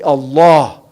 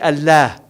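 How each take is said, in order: First: The L is said heavy and full. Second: The L is said light and thin. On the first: The speaker calls it right. "You say Allah. Because the tafkhim is a way the Arabs exalt something" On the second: The speaker calls it wrong. "you don't say Allah"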